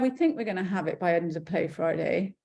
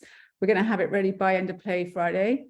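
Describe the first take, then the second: First: It sounds hesitant and unsure. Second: It sounds confident and certain.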